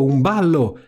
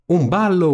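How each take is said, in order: First: A second, calmer shout of delight; repeating it with less lift; excited cry. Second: High, eager squeal of joy; a stepsister thrilled about the ball; giddy high cry; excited cry. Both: A narrator's reading. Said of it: "gridarono Anastasia e Genoveffa".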